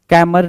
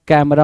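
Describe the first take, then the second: First: कैमर with the final a dropped; wrong pronunciation. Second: Said in the usual way. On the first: Shown as a demonstration. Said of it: "कैमरा होता है". (गलत उच्चारण कैमर) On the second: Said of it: "कैमर नहीं होता है".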